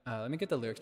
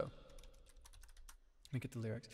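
First: Said in the usual way. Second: Softly whispered to himself. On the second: Shown as a demonstration. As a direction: whisper it, much softer and slower. Repeats line in a whisper.

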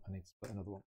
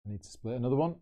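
First: Dropped to a near-whisper mutter; muttered to himself. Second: Said in the usual way. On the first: Real, not acted. Splitting coins, repeating it to himself under his breath. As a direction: mumble it under your breath. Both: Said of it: "repeats the line".

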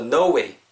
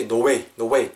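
First: "no way" with an "oh-oo" glide in no; rounded O glide. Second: "no way" sounded out too literally; overly literal pronunciation. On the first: Teacher models it for learners, gliding O in "no way". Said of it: "요렇게 들어간다고 생각하시면". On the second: Teacher shows learners what to avoid, overly literal "no way". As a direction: say "no way" squarely by the letters. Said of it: "너무 이렇게 정직하게 발음하시기보다는". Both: Shown as a demonstration.

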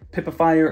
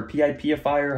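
First: PIPIFIER as one word, "pip-uh-fire". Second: P I P ifier with P, I, P as separate letter names; letters spelled out. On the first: Host offering viewers a choice of names, Pipifier said as one word. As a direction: run PIPIFIER together, starting like "pip". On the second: Host offering viewers a choice of names, P I P ifier spelled out. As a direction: say "pee-eye-pee" then "ifier" in P I P ifier. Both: Shown as a demonstration. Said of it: "however you guys wanna say it".

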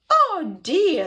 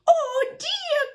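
First: Mock sob, high and loud; sobbing grandma. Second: Very high-pitched grandma's cry; dismayed cry. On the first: Grandma cannot free Felix, hammed-up loud sob. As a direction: cry it out as an upset Grandma. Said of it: "sobbed Grandma". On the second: Grandma woken by the banging, high cry of dismay. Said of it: "cried the grandma". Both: A narrator's reading.

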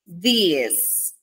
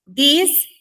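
First: "this" with a long, drawn-out ee; lengthened vowel. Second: "This" said short, higher; short vowel. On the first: Teacher showing learners the plural, long-vowelled "this". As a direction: stretch the vowel in "this" as in these. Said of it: "este es como más larguito". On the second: Teacher contrasting similar words for learners, short "This". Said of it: "Miren que la pronunciación de estos dos es parecida". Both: Shown as a demonstration.

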